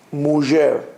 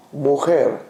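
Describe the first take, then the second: First: "mujer" with ZH for the J; Ladino soft J. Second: "Mujer" with a throaty KH for the J; Spanish throaty J. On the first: Teacher showing the Ladino word for woman, "mujer" with ZH. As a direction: say "mujer" with a soft French-style J. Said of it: "In Ladino, it'll be". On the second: Teacher answering how Spanish says woman, "Mujer" with KH. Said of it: "How do you say a woman in Spanish?". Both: Shown as a demonstration.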